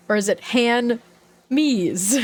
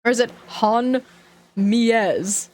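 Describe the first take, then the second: First: "han me's" said as HAND-mees, with the d; "han me's" sounded out with a hard d; another reading. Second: "han mies" said as HAN-mees; "han mies" sounded out, unsure; trying a reading. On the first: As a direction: try it as "han me's" this time. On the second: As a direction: guess it as "han mies", two syllables. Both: Shown as a demonstration.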